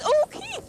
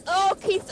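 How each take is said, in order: First: High, thrilled call of the name; excited. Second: Said in the usual way. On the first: Real, not acted. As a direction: raise the pitch on Oh Keith. Repeated, excited, calling to Keith.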